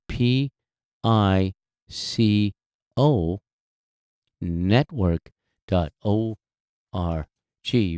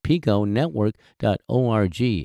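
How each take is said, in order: First: It is said more slowly. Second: It is said at a normal pace.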